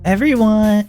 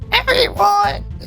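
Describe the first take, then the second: First: It is said without the character's voice. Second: It is said in the character's put-on voice.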